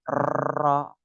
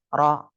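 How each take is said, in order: First: The r is trilled long and heavily. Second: The r is trilled lightly, about twice. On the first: The speaker calls it wrong. "terlalu bergetar banyak salah" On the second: The speaker calls it right. "yang betul ro jadi bergetarnya cuma dua kali"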